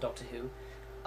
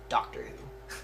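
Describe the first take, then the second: First: It is said in a British accent. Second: It is said in an American accent. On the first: "I have been doing this really cool um, British accent"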